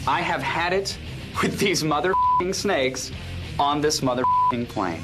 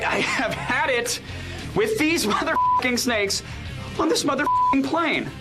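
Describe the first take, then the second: First: The line is delivered straight, without laughter. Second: The line is delivered with laughter in it. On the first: "Bit more frustration" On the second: "No laughter at all"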